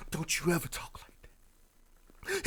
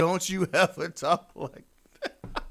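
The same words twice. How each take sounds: First: Slow, hammed-up whispered scolding; mock intense whisper. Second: High, loud, drawn-out mock scolding with laughter; mocking outrage. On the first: Mocking a boyfriend reassuring his woman, intense whisper. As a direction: whisper it with overdone devotion, dragging the words. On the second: Mocking the boyfriend's expected reply, hammed-up outrage. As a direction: ham up the devoted boyfriend, stretching every word. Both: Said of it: "He's supposed to say".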